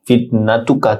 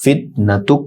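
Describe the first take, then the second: First: ফিতনাতুকা with final "ka" voiced; unpaused form. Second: ফিতনাতুক ending on a bare "k"; stopped form. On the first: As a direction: say ফিতনাতুকা ending on an open vowel. (ফিতনাতুকা, শেষে আ-ধ্বনি সহ) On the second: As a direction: cut ফিতনাতুক off on the consonant. (ফিতনাতুক, শেষের কাফে জজম) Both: Shown as a demonstration. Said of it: "শেষের কাফে জজম হবে ওয়াকফ হলে".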